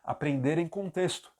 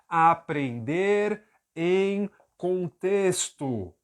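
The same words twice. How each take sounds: First: Said quickly, with the words weakened together. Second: Said slowly, each word given full weight. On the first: The speaker calls it right. "Isso é a pronúncia fraca" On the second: The speaker calls it wrong. "Isso é a pronúncia forte"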